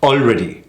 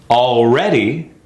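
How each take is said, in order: First: ALREADY short, weak second syllable; mis-stressed already. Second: ALREADY slow, long second syllable; correct stress on already. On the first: Coach showing the wrong take, mis-stressed ALREADY. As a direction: toss ALREADY off quickly. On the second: Coach contrasting rhythms, stressed al-READ-y. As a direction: draw out REA in ALREADY. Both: Shown as a demonstration. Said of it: "See the difference?".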